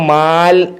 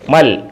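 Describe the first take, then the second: First: The vowel is drawn out long. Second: The vowel is kept short. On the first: The speaker calls it wrong. "മൽ എഴുതിയേക്കുന്ന മാൽ എന്നും" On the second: The speaker calls it right. "പറയേണ്ടത് മൽ എന്നുമാണ്"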